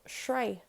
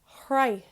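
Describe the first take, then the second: First: The word begins with an s sound. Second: The word begins with an h sound.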